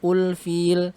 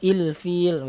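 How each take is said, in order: First: The word begins with a u vowel. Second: The word begins with an i vowel. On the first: "bukan ul-fil" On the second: "atau il-fil, bukan"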